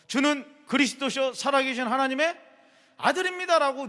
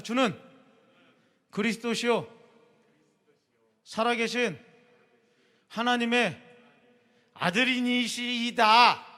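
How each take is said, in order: First: Louder, higher and quicker run; confession repeated. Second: Slow, louder word by word confession; solemn recitation. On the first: Pastor repeating the confession for the youth, quicker and louder. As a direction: say it through in one flowing breath. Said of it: "뒤에 끝말은 별로 중요하지 않아". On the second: Pastor leading youth to recite Peter's confession, slow and deliberate. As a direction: lead the group line by line, slowly. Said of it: "다 같이 따라해보세요". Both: Shown as a demonstration.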